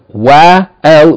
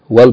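First: The article's vowel is pronounced as a separate syllable. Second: The article's vowel is dropped and linked to the preceding syllable. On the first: The speaker calls it wrong. "instead of wa al" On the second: The speaker calls it right. "we're going to just say wal baytu"

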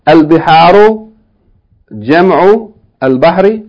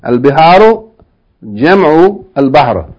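No difference in how they are said.

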